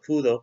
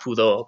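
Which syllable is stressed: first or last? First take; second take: first; last. First: The stress is on the first syllable. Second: The stress is on the last syllable. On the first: The speaker calls it right. "but pudo" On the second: The speaker calls it wrong. "not pudo"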